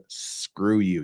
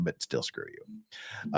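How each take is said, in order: First: Said in the usual way. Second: Low, slow whisper at YouTube; whispered mock curse. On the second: Real, not acted. Streamer whispering a jokey curse at YouTube, slow whisper. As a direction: breathe it out like a grudging afterthought.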